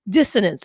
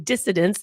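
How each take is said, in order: First: The middle consonant is an 'n' sound. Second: The middle consonant is a 'd' sound. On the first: The speaker calls it right. "No, it's dis- dissonance" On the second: The speaker calls it wrong. "which I often say wrong and say dissidence"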